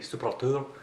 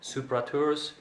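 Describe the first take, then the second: First: The name is said very quickly. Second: The name is said at a normal, unhurried pace.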